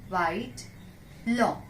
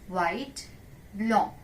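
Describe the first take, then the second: No difference in how they are said.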